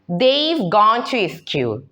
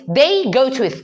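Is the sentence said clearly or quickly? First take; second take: clearly; quickly. First: It is said slowly and clearly. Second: It is said fast and run together. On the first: The speaker calls it right. "If you want to say" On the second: The speaker calls it wrong. "but you say quickly, okay, like this"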